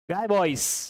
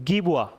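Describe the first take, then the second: First: The name sounds like 'guy boys'. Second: The name sounds like 'gee-bwa'. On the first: The speaker calls it wrong. "Guy Boys, you can say" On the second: The speaker calls it right. "the correct pronunciation is Gibua"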